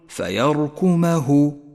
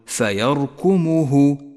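First: The meem is followed by an open 'a' vowel. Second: The meem is followed by a rounded 'u' vowel. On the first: The speaker calls it right. "فقل فيركمه" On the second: The speaker calls it wrong. "ولا تقل فيركمه، فإنه لحن جلي"

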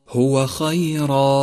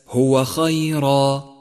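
No difference in how they are said.

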